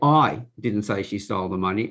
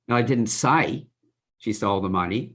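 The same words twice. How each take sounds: First: The stress is on the word I. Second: The stress is on the word say.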